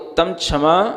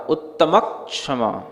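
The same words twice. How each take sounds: First: The ch sound comes with no k before it. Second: A light k sound comes before the ch sound. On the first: The speaker calls it wrong. "नहीं तो उत्तम क्षमा ऐसा हो जाएगा" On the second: The speaker calls it right. "छ से पहले आपको थोड़ा क का उच्चारण करना"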